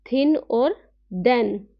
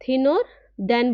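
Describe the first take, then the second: First: थिन और देन said slowly, each word drawn out clearly; slow teacher demo. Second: Said in the usual way. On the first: Shown as a demonstration. Teacher shows students the th sounds, slow demo. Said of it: "तो इसको क्या बोलेंगे?". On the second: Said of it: "थिन और देन बोलेंगे इसे".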